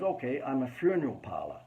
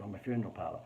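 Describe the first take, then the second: First: Put-on half-hearted American accent; rough stab at an American accent; attempted American accent. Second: Said in the usual way. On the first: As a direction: badly imitate an American client. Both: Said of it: "I can't do the American accent".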